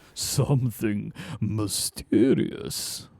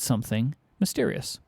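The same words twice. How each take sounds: First: It is said in a dramatic, convincing way. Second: It is said in a flat, matter-of-fact way. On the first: The speaker calls it right. "Nailed it" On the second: The speaker calls it wrong. "I think you can say that in a more convincing way"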